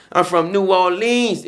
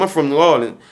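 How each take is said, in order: First: "New Orleans" drawn out slow with weight; slow, meaningful. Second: Said in the usual way. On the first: Real, not acted. Telling listeners where he's from, slow and knowing. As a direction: let "I'm from New Orleans" sink in slowly. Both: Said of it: "if you know what I mean".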